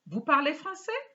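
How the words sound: The pitch rises at the end. It asks a yes or no question. "when you raise the voice"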